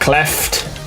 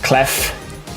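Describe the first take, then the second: First: The name ends in a t sound. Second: The name ends in an f sound. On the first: The speaker calls it wrong. "not Cleft" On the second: The speaker calls it right. "Clef, not Cleft"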